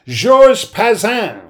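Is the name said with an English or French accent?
French. The name is said with a French accent. The name is said this way to mock its owner. "as I always call him ... I like to mock him as if he's some poulain Quebecois"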